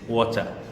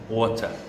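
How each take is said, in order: First: The words blend into one short reduced form. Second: The words blend into one short reduced form.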